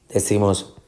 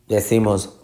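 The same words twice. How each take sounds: No difference in how they are said.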